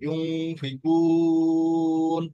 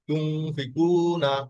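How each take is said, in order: First: It ends on n after a long held vowel. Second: It ends in na after a short vowel. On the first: The reader stops at this word. "যদি থেমে যান তাহলে হবে চার আলিফ" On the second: The reader continues without stopping. "আর চালিয়ে গেলে হবে এক আলিফ"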